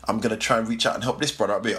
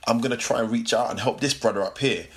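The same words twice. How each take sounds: First: Rattled off quickly; fast repeat. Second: Said in the usual way. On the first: Shown as a demonstration. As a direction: say it fast in one breath. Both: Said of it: "repeated faster".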